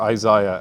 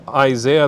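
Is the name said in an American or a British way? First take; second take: British; American. First: The name is said in a British way. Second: The name is said in an American way.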